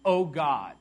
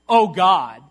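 First: It is said as a reverent, sincere prayer. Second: It is said as an exasperated curse.

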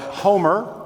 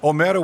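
First: The name has an English pronunciation. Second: The name has a Brazilian Portuguese pronunciation. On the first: "which is how you would say it in English" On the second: "I'm saying Omero's name in with the Brazilian pronunciation"

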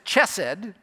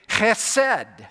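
First: It begins with an English ch sound. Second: It begins with a harsh throaty sound. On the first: The speaker calls it wrong. "if you pronounce that as chesed" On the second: The speaker calls it right. "If you're not probably spitting on the person in front of you, you're not really pronouncing it correctly. It's chesed"

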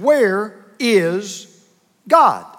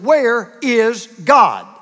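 First: It is asked in a calm voice. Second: It is asked in a raised voice.

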